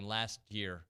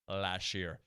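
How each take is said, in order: First: Last ends with a clear t sound. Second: Last ends with an sh sound, like lash. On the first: "Instead of saying last year" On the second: "I make it an L A S H"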